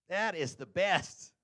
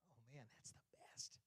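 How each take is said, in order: First: Slow emphatic rise; drawn-out delight. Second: Breathless whisper; whispered savoring. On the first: Someone praising a treat, slow emphatic delight. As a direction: stretch each word in praise. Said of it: "anybody say that". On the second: Someone savoring a treat, whispered delight. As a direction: whisper it in bliss. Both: Retold or imitated.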